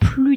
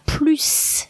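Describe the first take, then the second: First: The final S of the word is silent. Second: The final S of the word is pronounced. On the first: There is no more money. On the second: There is more money.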